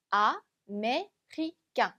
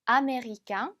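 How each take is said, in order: First: "아메리칸" in French, slowly in four separate syllables; a-mé-ri-cain, pausing between parts of "아메리칸". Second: Said in the usual way. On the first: Shown as a demonstration. ("아메리칸"을 프랑스어로 한 음절씩 나눠서) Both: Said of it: "이렇게 나누어서 읽어주시면".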